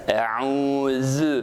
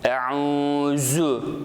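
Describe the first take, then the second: First: The z sound is a lisped th-like sound. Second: The z sound is a sharp hissing z. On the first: The speaker calls it right. "Eûzü diye peltek okuyacağız" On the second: The speaker calls it wrong. "keskin zay harfine benzetebiliyoruz"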